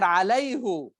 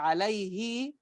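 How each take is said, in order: First: The word ends with a short 'u' vowel. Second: The word ends with a short 'i' vowel. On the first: It elevates and exalts toward God. "But here alayhu Allah" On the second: It sounds lower, the usual form. "Because al-kasra, okay, alayhi, like something lower"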